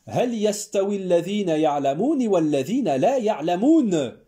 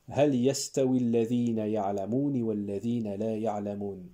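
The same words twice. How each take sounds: First: It is said with a French-sounding intonation. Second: It is said with a native Arabic intonation. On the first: The speaker calls it wrong. "j'ai mis une intonation à la française" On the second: The speaker calls it right. "je vais répéter le verset"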